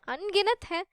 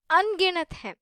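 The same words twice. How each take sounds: First: Said in the usual way. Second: अनगिनत whispered with no voice. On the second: Shown as a demonstration. Teacher whispers to students how countless the words are. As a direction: breathe अनगिनत हैं out as a secret.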